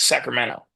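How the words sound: The T is dropped, Californian style.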